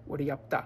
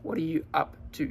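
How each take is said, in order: First: "What are you up to" ending on "ta"; casual Aussie "What are ya up ta", run together. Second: Said in the usual way. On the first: Shown as a demonstration. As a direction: reduce "you" to "ya" and "to" to "ta". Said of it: "to ta". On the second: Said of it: "Y también con to".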